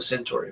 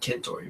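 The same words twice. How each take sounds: First: It uses the common English pronunciation. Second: It uses the Latin pronunciation. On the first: The speaker calls it wrong. "Everyone says Alpha Centauri" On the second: The speaker calls it right. "it's actually Centauri by the Latin pronunciation"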